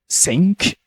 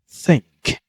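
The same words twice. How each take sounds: First: The first sound is not a clear th. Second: The first sound is a clear th. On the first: The speaker calls it wrong. "I've heard a lot of people, they say ... is not what it meant to be pronounced" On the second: The speaker calls it right. "You have to put your tongue between your teeth"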